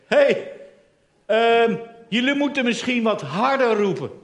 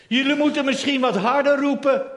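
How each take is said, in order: First: Mocking taunt. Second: Mocking. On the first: Elia mocking the priests of Baal, teasing and raised. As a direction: needle them with fake helpfulness. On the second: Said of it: "Elia spot met Baal".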